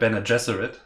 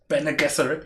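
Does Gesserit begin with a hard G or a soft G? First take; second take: soft G; hard G. First: Gesserit begins with a soft J-like sound. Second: Gesserit begins with a hard G sound. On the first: The speaker calls it wrong. "It is definitely not Bene Gesserit. It's not Jif" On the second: The speaker calls it right. "It's Gif. Gesserit"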